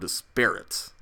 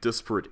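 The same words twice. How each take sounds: First: The stress is on the second syllable. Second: The stress is on the first syllable.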